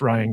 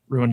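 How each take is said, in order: First: The name is said like 'Ryan', one smooth syllable. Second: The name is said like 'ruin', two syllables. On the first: "I know it's pronounced Ryan" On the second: "I prefer to pronounce it phonetically"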